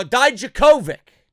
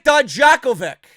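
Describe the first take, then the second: First: "Dijakovic" with the stress on KO, "dye-ja-KO-vic"; corrected pronunciation. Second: "Dijakovic" with the stress on JAK, "dye-JACK-o-vic"; first attempt at pronunciation. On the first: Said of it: "I gotta get used to it". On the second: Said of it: "It's tough, man. I gotta get used to it". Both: Real, not acted.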